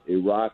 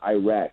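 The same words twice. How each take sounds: First: It is said with the non-American pronunciation. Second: It is said with the American pronunciation. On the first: The speaker calls it right. "Let's pronounce the countries ... right" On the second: The speaker calls it wrong. "It's not Iraq"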